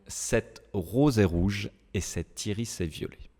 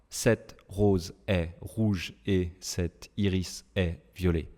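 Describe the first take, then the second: First: The words run together, linked without breaks. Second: The words are said separately, without linking. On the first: The speaker calls it right. "en français, on va tout lier, tout enchaîner" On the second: The speaker calls it wrong. "je ne dis pas"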